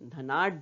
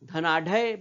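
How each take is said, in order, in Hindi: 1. अंतिम dh केवल आधा बोला जाता है। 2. अंतिम dh स्वर के साथ पूरा बोला जाता है। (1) "सही उच्चारण धनाढ़" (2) "धनाढ़ बोलते हैं क्या? नहीं"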